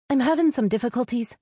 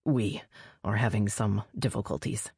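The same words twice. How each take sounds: First: High-pitched, sudden female confession; blurted out. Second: "We" set apart, low and measured; stress on "We". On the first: A narrator's reading. Sister finally admitting trouble to her brother, blurted high. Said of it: "she finally blurted". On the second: Acted. Mate correcting sister's confession, low stress on "We". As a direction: correct gently with a separate, weighted "We".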